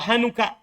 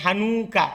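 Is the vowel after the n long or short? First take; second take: short; long. First: The vowel after the n is short. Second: The vowel after the n is long. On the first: The speaker calls it right. "Tapi cepat" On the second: The speaker calls it wrong. "Jadi bukan hanuka"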